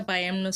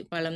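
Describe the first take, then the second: First: பயம்னு with y in place of ழ; mispronunciation. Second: பழம் with a ழ sound, not y; correct pronunciation. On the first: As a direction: show the slip பயம்னு, "payam" for pazham. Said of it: "சொல்றக்கூடாது". (ழகரத்தை யகரமாக்கி பயம்னு) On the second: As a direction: curl the tongue mid-word in பழம். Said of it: "பழம் தான் correct". (பழம் என ழகர ஒலியுடன்) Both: Shown as a demonstration.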